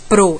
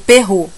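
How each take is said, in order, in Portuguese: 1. O P e o R formam uma só sílaba. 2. Uma vogal separa o P do R. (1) "O pro é as três letras que vão juntas" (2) "Eu não posso falar P R O ou perro. Não, não é perro"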